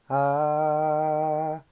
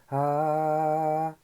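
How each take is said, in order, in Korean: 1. 이 모음은 들리는 숨소리가 섞여 있어요. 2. 이 모음은 들리는 숨소리가 섞여 있어요.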